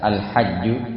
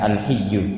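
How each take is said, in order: First: The vowel after the h is a. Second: The vowel after the h is i. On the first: "dengan fathah huruf ha-nya" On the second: "dengan kasrah huruf ha-nya"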